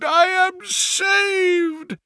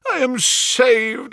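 First: Even higher and slower, stretched cry; joyful repeat. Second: High, slow, ecstatic cry; shriek of joy. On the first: Banker repeating his rescue, higher and slower in ecstasy. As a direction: sing out the relief once more. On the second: Banker clutching his recovered gems, high ecstatic cry. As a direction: let the relief burst out. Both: Acted. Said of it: "With a shriek of joy".

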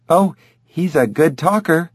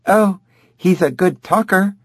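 First: Said in the usual way. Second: High mocking parrot mimicry; mimicking her voice. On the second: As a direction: parrot her words back, pitched right up. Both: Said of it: "mimicking her voice".

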